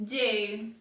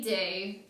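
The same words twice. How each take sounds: First: The vowel is a long oo sound. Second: The vowel is a long oo sound.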